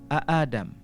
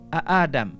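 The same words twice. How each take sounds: Both takes have the same delivery.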